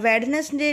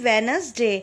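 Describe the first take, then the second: First: The first d is pronounced clearly. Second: The first d is not pronounced. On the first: The speaker calls it wrong. "हम वेडनेसडे ने नहीं बोलेंगे" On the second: The speaker calls it right. "ये silent होता है, हम बोलेंगे only वेनसडे"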